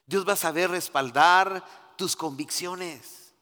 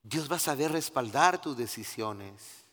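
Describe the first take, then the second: First: "va" pressed, slow and louder; slow emphatic "Dios va a saber"; stress on va. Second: Said in the usual way. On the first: Real, not acted. (acento en "va", lento y enfático) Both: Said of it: "repeated as emphasis".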